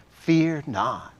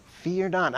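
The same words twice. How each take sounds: First: Said in the usual way. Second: A gentle, caring "Fear not." with a lifted pitch; compassionate. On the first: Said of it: "Turn to the person next to you, say". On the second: Shown as a demonstration. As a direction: say "Fear not." as comfort, not a rebuke. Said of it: "I think that's how Jesus said it".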